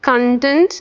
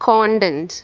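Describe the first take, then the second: First: The stress is on the second syllable. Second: The stress is on the first syllable. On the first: It means feeling happy and satisfied. "നമുക്ക് കണ്ടന്റ് എന്നും pronounce ചെയ്യാം" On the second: It means what something contains. "ആദ്യത്തെ കോണ്ടന്റ്"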